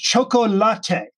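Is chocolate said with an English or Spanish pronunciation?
Spanish. It is said with a Spanish pronunciation. The speaker calls it right. "chocolate is a Spanish word pronounced chocolate"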